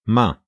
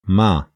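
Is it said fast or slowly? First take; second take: fast; slowly. First: It is said fast. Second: It is said slowly.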